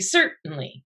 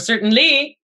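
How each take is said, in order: First: The stress is on the first syllable. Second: The stress is on a later syllable. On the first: The speaker calls it right. "you say certainly" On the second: The speaker calls it wrong. "You don't say certainly"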